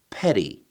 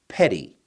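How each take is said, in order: First: The middle consonant is a quick flap. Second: The same.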